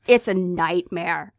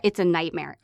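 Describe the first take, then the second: First: "It's a nightmare," drawn out slowly and pressed hard; slow emphatic repeat. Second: Said in the usual way. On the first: Real, not acted. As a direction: stretch "It's a nightmare," to drive it home. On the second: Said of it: "It's a nightmare, okay?".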